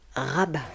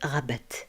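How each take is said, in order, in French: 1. Le T final est muet. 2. Le T final se prononce. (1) "Le T reste muet, il ne se prononce pas" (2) "On ne va pas dire Rabat"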